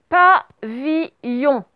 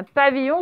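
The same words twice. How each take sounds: First: PAVILLON very slow, each syllable set apart; syllable-by-syllable dictation. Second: Said in the usual way. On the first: Shown as a demonstration. Teacher dictating the last word to pupils, syllable by syllable.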